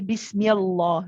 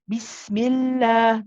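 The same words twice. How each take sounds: First: The L sound is heavy and full. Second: The L sound is light and thin. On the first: The speaker calls it wrong. "We do not say" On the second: The speaker calls it right. "The lam is light"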